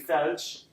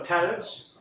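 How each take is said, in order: First: The word begins with a th sound. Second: The word begins with a plain t sound. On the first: This is the formal standard form. "thalj is the fusha word" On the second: This is the everyday spoken form. "they don't say tha in spoken"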